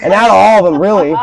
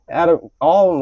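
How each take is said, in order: First: Laughing. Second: Said in the usual way. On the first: Real, not acted.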